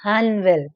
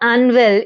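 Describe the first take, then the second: First: The word starts with an H sound. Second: The word starts without an H sound. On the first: The speaker calls it right. "मतलब एच वी है उसमें" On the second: The speaker calls it wrong. "It is not अनवेल"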